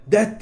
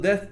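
First: "death" said as "det"; learner's "death" closed with a plain T. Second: "death" with tongue-between-teeth TH at the end; English TH. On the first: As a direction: end "death" on a hard T in place of TH. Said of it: "değil de death dedin diye". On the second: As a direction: end "death" on the breathy dental TH, not T. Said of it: "death değil de death dedin". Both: Shown as a demonstration.

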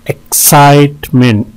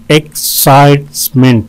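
First: "एक्साइटमेंट" in three beats, middle one held; syllable breakdown. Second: "एक्साइटमेंट" in three separate beats; syllable breakdown. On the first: ("एक्साइटमेंट" तीन हिस्सों में) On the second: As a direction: pause between syllables of "एक्साइटमेंट". ("एक्साइटमेंट" हर हिस्सा अलग करके) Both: Shown as a demonstration. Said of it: "तीन syllable हैं".

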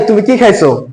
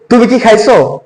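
First: The i in কি stretched out; "কি" held longer, an open question. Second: কি kept short, a quick yes-no question; "কি" with a brief, clipped i. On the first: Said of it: "একটু লম্বা করে বললাম". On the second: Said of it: "আবার বলছি". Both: Shown as a demonstration.

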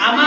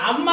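First: అమ్మ reduced to "ama", single short m; single consonant. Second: అమ్మ with a long, pressed double m; doubled consonant. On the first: Teacher correcting children's reading, అమ్మ with a single m. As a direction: say అమ్మ without doubling the m. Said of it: "అమ్మ అనాలి". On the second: Teacher showing children the reading to avoid, అమ్మ with doubled m. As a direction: press firmly on the మ్మ in అమ్మ. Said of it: "గట్టిగా ఒత్తిచ్చినప్పుడు". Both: Shown as a demonstration.

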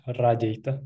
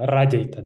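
First: Radeta, stress on RA; stress first syllable. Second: Radeta with RA stressed; stress first syllable. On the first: Teacher repeats Radeta for the learner. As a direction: land on RA in Radeta. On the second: Teacher models stress on the first syllable. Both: Shown as a demonstration. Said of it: "the stress have to be on the first syllable".

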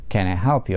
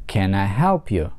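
First: Can I help you at normal pace, help stressed. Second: Can I help you, slowly, help stressed; slow down and lean on help. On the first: Teacher repeats the question at normal speed. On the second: Teacher shows stress on help, slowly. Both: Shown as a demonstration. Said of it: "ударение падает на глагол help".

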